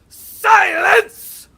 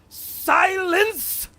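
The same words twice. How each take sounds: First: The command sounds more authoritative. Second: The command sounds less forceful.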